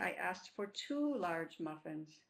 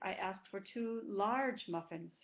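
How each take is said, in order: First: The word two carries the main stress. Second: The word large carries the main stress. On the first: The server gave only one muffin. "is stressing the word two" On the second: The server gave small muffins. "The server gave the customer two small muffins because my voice"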